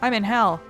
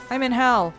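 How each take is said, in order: Both takes have the same delivery.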